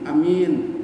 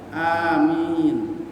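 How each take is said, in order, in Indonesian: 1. Vokal pertama pendek. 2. Vokal pertama panjang. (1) "sering kita dengar" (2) "Padahal seharusnya amin"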